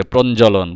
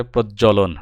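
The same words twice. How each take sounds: First: প্রঞ্জলন with an n before the j: pron-jolon; প্রঞ্জলন as the error, pron-jo-lon; wrong form. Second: প্রজ্বলন with a doubled j and no n: proj-jolon; প্রজ্বলন corrected, proj-jo-lon; correct form. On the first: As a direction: say প্রঞ্জলন with the mistaken nasal consonant, "pronjolon". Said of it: "প্রঞ্জলন কিছু হয় না". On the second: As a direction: slowly say প্রজ্বলন as "projjolon". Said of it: "শুদ্ধ বানান". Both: Shown as a demonstration.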